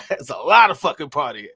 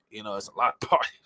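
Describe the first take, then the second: First: "lot" and "fucking" pushed out louder; stress on lot. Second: Said in the usual way. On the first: Shown as a demonstration. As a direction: lean hard on "a lot of fucking partying". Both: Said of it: "Don't get me wrong".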